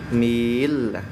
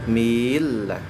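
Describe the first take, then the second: The two takes are said the same way.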